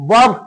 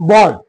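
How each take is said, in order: The two takes are said the same way.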